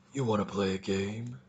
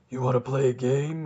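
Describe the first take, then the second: First: Much lower, soft creepy puppet voice; Jigsaw voice. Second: Said in the usual way. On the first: Pretend. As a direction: play the Saw killer, low and menacing.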